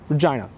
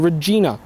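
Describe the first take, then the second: First: It is said with the shifted English vowels. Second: It is said with a softened, French-like pronunciation. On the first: "vowels started shifting during the fourteen hundreds in England" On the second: "the pronunciation was modified to Regina, which you can still find in languages such as French"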